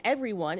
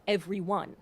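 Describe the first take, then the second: First: Said in the usual way. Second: "everyone" spaced out evenly, syllable by syllable. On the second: Shown as a demonstration. Teacher showing how "everyone" can rhyme with done, syllables spaced out. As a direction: space out each beat of "everyone". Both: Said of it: "if you space out everyone".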